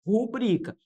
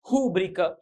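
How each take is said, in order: First: Rubrica stressed on BRI, paroxytone; correct stress. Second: Rúbrica said with the stress on RÚ; wrong stress demo. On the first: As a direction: say rubrica with the stress on the middle syllable. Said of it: "deve ser pronunciada rubrica". (rubrica com tônica em BRI) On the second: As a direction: stress the first syllable of Rúbrica, as a mistake. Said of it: "O que é que nós falamos". (Rúbrica com acento errado na primeira sílaba) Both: Shown as a demonstration.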